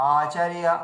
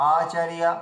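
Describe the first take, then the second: No difference in how they are said.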